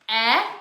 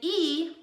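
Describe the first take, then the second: First: The vowel is the short sound, like in bed. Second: The vowel is the long sound, like its name. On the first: "which is short" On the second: "which is long"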